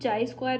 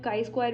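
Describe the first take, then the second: First: The first word starts with a 'ch' sound. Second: The first word starts with a 'k' sound. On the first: "इसको हम चाई square भी pronounce कर सकते हैं" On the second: "काई square भी pronounce कर सकते हैं"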